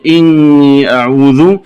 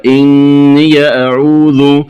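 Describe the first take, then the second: First: Said in the usual way. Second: إني أعوذ linked as "inniya a'udhu"; open ya. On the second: Shown as a demonstration. Teacher showing the variant, إني أعوذ with open ya. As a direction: add short a after إني, running into أعوذ. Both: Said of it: "بفتح الياء وصلا".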